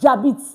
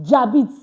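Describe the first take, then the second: The two takes are said the same way.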